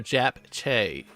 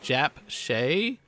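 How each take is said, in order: First: The second word starts with a ch sound. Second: The second word starts with an sh sound. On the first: "or a C H?" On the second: "Is that S H sound"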